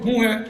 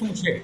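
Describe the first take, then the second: First: It is said with h sounds instead of sh. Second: It is said with sh and ch sounds.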